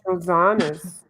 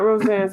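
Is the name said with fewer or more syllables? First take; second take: more; fewer. First: The name is said with more syllables. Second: The name is said with fewer syllables. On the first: The speaker calls it right. "it's Rosanna's" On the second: The speaker calls it wrong. "it's not Roseanne's"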